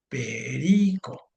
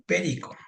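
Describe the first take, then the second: First: Perico said slowly, each syllable drawn out, stress on RI. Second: Said in the usual way. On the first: Shown as a demonstration. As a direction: spell out Perico by its syllables, leaning on RI. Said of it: "por qué no le puedo poner la tilde". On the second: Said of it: "Entonces tengo ahí".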